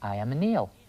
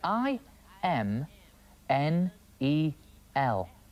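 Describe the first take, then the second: First: The letters are run together quickly. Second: Each letter is said separately and slowly.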